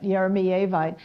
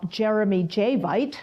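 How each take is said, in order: First: The name begins with a vowel sound. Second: The name begins with a J sound. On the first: The speaker calls it right. "but Eremievite" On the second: The speaker calls it wrong. "that I used to call Jeremy J-Vite"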